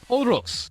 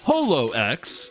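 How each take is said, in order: First: The name ends with the sound 'rox'. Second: The name ends with the letter name X. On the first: The speaker calls it right. "in Japanese is intended to be pronounced as Horox" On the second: The speaker calls it wrong. "it's not actually pronounced HoloX"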